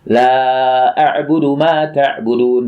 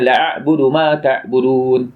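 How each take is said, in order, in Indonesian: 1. Vokal pada kata pertama panjang. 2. Vokal pada kata pertama pendek. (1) "Asalnya tidak aku sembah apa yang kamu sembah" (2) "Dia bacanya"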